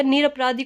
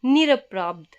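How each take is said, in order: First: निरपराधी said with final "dhee"; wrong final vowel. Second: निरपराध ending on consonant "dh"; correct bare ending. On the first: Teacher rejecting the wrong word, final ee in निरपराधी. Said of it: "कोई शब्द नहीं होता". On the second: Teacher giving the correct word, consonant ending on निरपराध. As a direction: stop निरपराध at "raadh", no final ee. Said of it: "शब्द होता है हमारा". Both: Shown as a demonstration.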